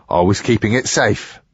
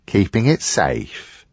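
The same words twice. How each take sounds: First: Said in the usual way. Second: Slow, disbelieving repeat of "Keeping it safe?"; incredulous echo. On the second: Acted. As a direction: throw "Keeping it safe?" back at him, slowly. Tom echoes the excuse in disbelief.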